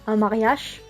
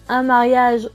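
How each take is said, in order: First: It is said with a Ch'ti pronunciation. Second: It is said with standard French pronunciation. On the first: "on va dire" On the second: "Pour dire"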